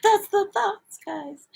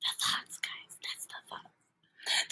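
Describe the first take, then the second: First: Very high, squeaky little voice; silly high-pitched repeat; playful high voice. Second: Hushed, drawn-out whisper; whispered aside to the audience; playful whisper. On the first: Repeats whispered phrase in high voice. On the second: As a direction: whisper it slowly, barely any voice. Playfully repeats a phrase in whisper. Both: Pretend.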